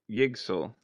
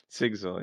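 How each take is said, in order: First: The name begins with a Y sound. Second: The name begins with an S sound.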